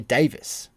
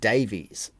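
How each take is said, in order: First: The name ends with an 'iss' sound. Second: The name ends with an 'eez' sound. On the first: This is how people over there say the name. "they pronounce it over there Davis" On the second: This is how people here say the name. "It's spelt like we would pronounce Greg Davies"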